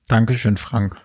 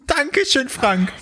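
First: The thanks sound flat and unexcited. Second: The thanks sound excited and enthusiastic.

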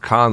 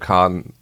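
First: The name is said plainly and quickly. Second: The name is said slowly and dramatically. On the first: "nicht einfach Khan" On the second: "sondern Khan"

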